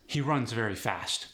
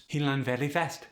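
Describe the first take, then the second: First: Said in the usual way. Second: Khmer accent, final consonants dropped; Khmer-accented, R softened and endings cut. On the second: Shown as a demonstration. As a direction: drop word endings, Khmer style. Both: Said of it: "when consonants are dropped".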